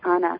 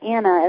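First: The name has an Italian pronunciation. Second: The name has an American pronunciation. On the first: "as Italians say" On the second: "as Americans say"

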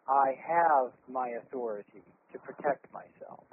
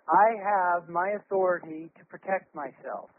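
First: The voice comes deeper, from the chest. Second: The voice comes tightly from the throat.

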